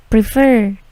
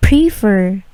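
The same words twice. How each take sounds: First: Prefer with a light P and no puff of air; soft unaspirated P. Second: Prefer with a hard aspirated P burst; wrong strong P. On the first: Teacher demos the correct prefer with a soft P. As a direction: prefer said gently, no burst on the P. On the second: Teacher demos the wrong prefer with a heavy P puff. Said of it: "P-nya tidak plosif. ... Bukan". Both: Shown as a demonstration.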